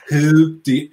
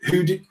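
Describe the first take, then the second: First: Put-on a light stab at a Trump accent, louder; brief mock Trump accent; Trump impression. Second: Said in the usual way. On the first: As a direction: start the line as Trump would, half-committed. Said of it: "this is my Trump accent". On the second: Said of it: "I should do it in a Trump accent".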